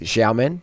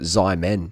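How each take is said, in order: First: The name is said with Mandarin-style sounds. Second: The name is said with English-style sounds. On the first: This is how the name is really said. The speaker calls it right. "But it's Xiamen" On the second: This is how the speaker habitually says it. The speaker calls it wrong. "I always call it Xiamen"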